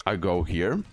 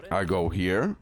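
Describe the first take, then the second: No difference in how they are said.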